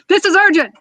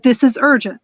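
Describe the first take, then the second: First: It is said in a harsh, yelling tone. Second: It is said in a warm, caring but serious tone. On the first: The speaker is pushing the listener without care. The speaker calls it wrong. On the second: The speaker still cares about the listener. The speaker calls it right. "I still care about you, but"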